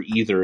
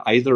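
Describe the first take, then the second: First: "either" said EE-ther; EE-ther pronunciation. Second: "either" said EYE-ther; EYE-ther pronunciation. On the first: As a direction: open "either" with the vowel of see. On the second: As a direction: open "either" with the vowel of eye. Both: Shown as a demonstration. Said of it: "where I said either or either".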